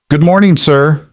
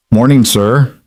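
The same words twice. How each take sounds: First: Higher-pitched, warm, friendly hello; warm greeting. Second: Mildly gentle, slightly lifted hello; a touch of gentle care in the greeting. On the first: Eli greets the silent old customer, warmly. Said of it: "Eli said warmly". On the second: As if speaking to a spooked animal, gently. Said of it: "Eli said gently". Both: A narrator's reading.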